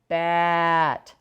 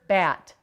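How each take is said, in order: First: The word is said slowly, sounds stretched out. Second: The word is said at normal speed. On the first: "Slow-mo man it" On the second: "Say the word"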